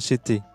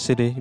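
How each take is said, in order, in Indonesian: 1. Huruf T di tengah terdengar seperti T yang jelas. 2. Huruf T di tengah terdengar seperti D yang cepat. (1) "bukan city" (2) "saya dari tadi mengucapkan city"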